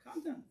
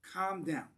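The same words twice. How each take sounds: First: "Calm down" said high, rising at the end; mock soothing. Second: "Calm down" said flat and firm, falling at the end. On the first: Teacher imitating someone soothing an upset friend, high and gentle. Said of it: "trying to calm down an emotion". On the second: Teacher imitating someone telling an emotional friend, firm and falling. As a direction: put "Calm down" down flatly, like an order. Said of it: "you're getting emotional". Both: Shown as a demonstration.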